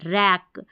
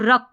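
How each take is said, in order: First: The vowel is an open a as in cat. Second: The vowel is a short, central uh sound. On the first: The speaker calls it right. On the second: The speaker calls it wrong.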